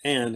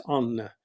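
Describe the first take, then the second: First: "Anne" as one syllable, silent E; "Anne" without a final vowel; American pronunciation. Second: "Anna" in two syllables, final vowel sounded; "Anna" with an open A and a voiced ending; Norwegian pronunciation. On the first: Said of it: "Americans would pronounce it". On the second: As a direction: say "Anna" the Norwegian way, every letter pronounced. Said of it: "Norwegians pronounce all the letters". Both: Shown as a demonstration.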